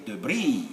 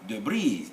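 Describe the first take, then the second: First: It is said the American way, stress shifted. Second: The same.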